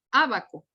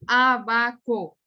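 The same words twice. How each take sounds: First: Said in the usual way. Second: "abaco" slowly split into Á, ba, co; syllable by syllable. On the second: Shown as a demonstration. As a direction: spell out "abaco" in loud, slow syllables. ("abaco" separado lentamente por sílabas, Á-ba-co) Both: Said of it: "una antepenúltima sílaba".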